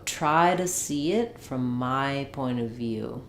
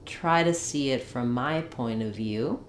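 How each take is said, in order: Both takes have the same delivery.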